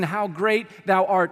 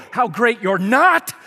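First: Said in the usual way. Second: Loud, slow, sarcastic outburst; hammed-up road-rage snap, much louder; mock road rage. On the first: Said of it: "You might have been singing". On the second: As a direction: blow up at the driver who cut you off. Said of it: "you just kinda blow up in that moment. You call it road rage".

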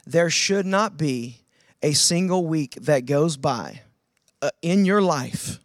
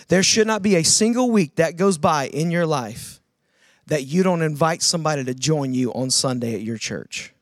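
First: Each phrase slowed with pauses between; slow and deliberate. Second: Said in the usual way. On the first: Shown as a demonstration. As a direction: lay out every phrase slowly, pausing between them. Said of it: "give you a really simple challenge". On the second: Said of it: "I'll say it again".

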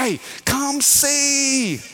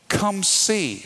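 First: High, long drawn-out Louisiana call; hammed-up Louisiana calling, very slow; Louisiana holler. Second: Said in the usual way. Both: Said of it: "We say that in Louisiana".

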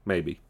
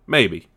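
First: Maybe said again much softer, falling away; a soft afterthought Maybe; quiet echo. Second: Said in the usual way. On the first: Shown as a demonstration. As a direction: repeat Maybe under your breath, dropping off.

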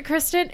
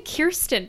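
First: Kristen with KRIS first, r before the vowel; correct name Kristen. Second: Kirsten with KEER first, r after the vowel; mistaken name Kirsten. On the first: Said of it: "I keep saying Kirsten". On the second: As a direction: say Kirsten as KEER-sten, not Kristen. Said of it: "I keep saying Kirsten for some reason". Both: Shown as a demonstration.

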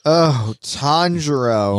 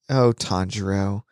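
First: Slow, drawn-out mock swoon; Zenitsu cooing. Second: Low, understated mock swoon; Zenitsu cooing. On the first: Retelling Zenitsu fawning on his friend, drawn-out mock swoon. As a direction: stretch the name out like a hammed-up admirer. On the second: Retelling Zenitsu pining for his friend, low mock swoon. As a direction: coo the name in a lowered voice.

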